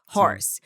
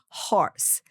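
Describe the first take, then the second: First: The R is pronounced as a strong consonant. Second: The R is a soft breath from the throat. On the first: The speaker calls it wrong. "faz o som do R" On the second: The speaker calls it right. "é um sopro, que vem aqui da garganta"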